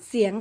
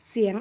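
No difference in how they are said.

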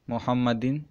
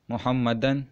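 First: The word ends with the sound 'in'. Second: The word ends with the sound 'an'. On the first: The noun is in the genitive case. "جر میں" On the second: The noun is in the accusative case. "نصب میں"

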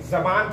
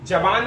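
First: The word begins with a z sound. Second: The word begins with a plain j sound. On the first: The speaker calls it right. "जबान पढ़ेंगे" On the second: The speaker calls it wrong. "जबान नहीं पढ़ेंगे"

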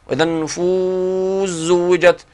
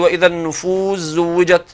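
First: The long vowel in النفوس is held moderately. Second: The long vowel in النفوس is held briefly.

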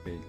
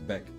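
First: The vowel is long, as in 'day'. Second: The vowel is short, as in 'bed'. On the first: The speaker calls it wrong. "You don't say his name like Bake" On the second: The speaker calls it right. "I think it's Beck"

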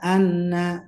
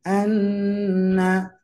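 First: The doubled n is held only briefly. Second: The doubled n is held twice as long. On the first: The speaker calls it wrong. "Tidak anna" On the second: The speaker calls it right. "tapi anna"

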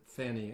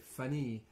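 First: The name is said with an English pronunciation. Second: The name is said with a French pronunciation. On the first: "We would pronounce it Fanny in English" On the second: "but in French they say Fanny"

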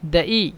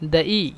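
Both takes have the same delivery.

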